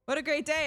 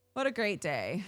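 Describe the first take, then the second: First: Higher, louder sarcastic cheer; mock cheer. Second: Said in the usual way. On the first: Shown as a demonstration. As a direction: overplay the joy ironically. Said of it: "repeated mock cheer". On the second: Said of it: "repeats with more energy".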